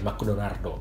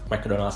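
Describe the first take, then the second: First: It is said in a Japanese accent, ending in -o. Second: It is said in a plain English accent. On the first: "melafalkan ... brand-brand nama Inggris lah ya dengan nama Jepang" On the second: "contohnya kayak McDonald's sendiri"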